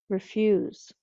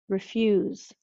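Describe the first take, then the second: Both takes have the same delivery.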